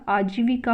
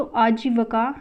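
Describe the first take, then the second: First: आजीविका with clear vi; correct form. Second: आजीविका said with va for vi; incorrect form. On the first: Teacher giving the correction, आजीविका with vi. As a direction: say आजीविका as aa-jee-vi-kaa. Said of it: "आजीविका होता है". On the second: Teacher rejecting the misspelling, आजीविका said with va. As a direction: say आजीविका as aa-jee-va-kaa. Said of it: "नहीं होता". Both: Shown as a demonstration.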